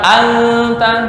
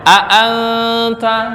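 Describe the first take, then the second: First: The glottal stop before anta is dropped. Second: The glottal stop before anta is clearly pronounced. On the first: The speaker calls it wrong. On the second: The speaker calls it right.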